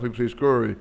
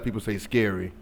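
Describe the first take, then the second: First: "scurry" with a Southern "ur" vowel; Southern-dialect "scurry", first vowel like "fur"; Southern dialect pronunciation. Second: Said in the usual way. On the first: Shown as a demonstration. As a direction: say "scurry" for scary, Southern style. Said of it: "You know, you down south". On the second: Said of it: "It's a dialect".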